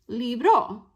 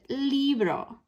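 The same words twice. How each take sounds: First: The stress is on the last syllable. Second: The stress is on the first syllable. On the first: The speaker calls it wrong. "not libro" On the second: The speaker calls it right. "that means we pronounce it libro"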